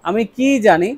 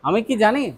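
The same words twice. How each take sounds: First: The word ki is drawn out and stretched. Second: The word ki is short and unstressed. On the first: It asks what the speaker could possibly know. "তখন কিটা একটু টান হবে।" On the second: It asks whether the speaker knows. "Do I know, এটা হচ্ছে একরকম।"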